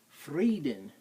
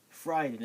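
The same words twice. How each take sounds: First: The first vowel sounds like ee. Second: The first vowel sounds like eye. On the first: The speaker calls it right. "it's Frieden. When you see I E at all in German, it's E" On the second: The speaker calls it wrong. "It's not Frieden"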